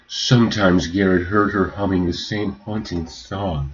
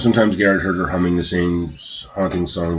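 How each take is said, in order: First: It is read in an overly dramatic, poetic way. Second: It is read in a flat, plain way.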